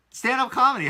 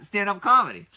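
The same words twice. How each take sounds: First: Stand-up comedy, high and loud; amazed. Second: Amazed. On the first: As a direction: say it like you can't believe it. Amazed repeat. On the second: Amazed repeat again. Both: Real, not acted.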